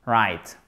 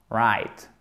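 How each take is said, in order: First: Right said low with a guttural r from the throat; Right with the r scraped from the back of the throat; throaty r. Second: Right said low with a guttural r; throaty r. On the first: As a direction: growl the r of Right deep in the throat. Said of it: "Et c'est vraiment comme ça". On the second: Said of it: "faire le R avec la gorge". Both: Shown as a demonstration.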